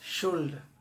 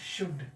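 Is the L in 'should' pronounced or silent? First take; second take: pronounced; silent. First: The word is said with an L sound. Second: The word is said without an L sound. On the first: The speaker calls it wrong. "जिसका spelling S H O U एल। ये गलत, this is the wrong pronunciation." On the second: The speaker calls it right. "इसका शुद्ध उच्चारण"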